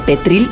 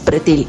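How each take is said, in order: First: The r sound comes right after the t. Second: The r sound comes right after the p. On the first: The speaker calls it wrong. "todo el mundo dice petril" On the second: The speaker calls it right. "en realidad es pretil"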